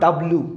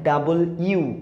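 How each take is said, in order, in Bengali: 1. অক্ষরের নামটি ছোট করে, জড়িয়ে জড়িয়ে বলা হয়। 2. অক্ষরের নামটি পুরোটা বলা হয়, 'double you'। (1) "this is not ডাব্লু" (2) "এটার উচ্চারণ হচ্ছে ডাবল ইউ"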